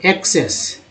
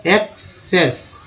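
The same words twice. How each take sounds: First: Said in the usual way. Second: access very slowly as एक, then सेस; split into syllables. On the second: Shown as a demonstration. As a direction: stretch and separate both halves of access. (Access को धीरे, दो हिस्सों में) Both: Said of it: "तो एक भी है".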